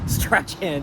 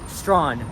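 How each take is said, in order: First: The name is said as spelled, Strachan. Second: The name is said as one syllable, Strawn. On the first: The speaker calls it wrong. "not Strachan" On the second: The speaker calls it right. "it is Strawn"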